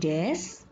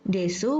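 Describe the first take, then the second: First: The word ends on the s sound. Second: The final u vowel is clearly pronounced. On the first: "desu berbunyi des" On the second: "huruf U tidak diucapkan"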